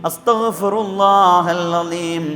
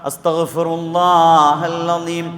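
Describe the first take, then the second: No difference in how they are said.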